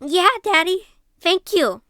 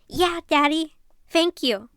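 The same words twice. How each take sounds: First: The child voice sounds hard. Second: The child voice sounds soft.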